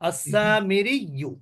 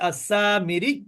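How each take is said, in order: First: The word ends with a final vowel. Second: The word ends without the final vowel.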